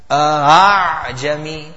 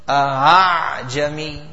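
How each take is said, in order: The two takes are said the same way.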